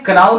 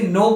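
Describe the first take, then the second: First: It starts with a k and rhymes with cow. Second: It sounds like no, with a silent k. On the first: The speaker calls it wrong. "क्राउ नहीं बोलना है" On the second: The speaker calls it right. "ये silent है, सिर्फ आपको इसे नो pronounce करना है"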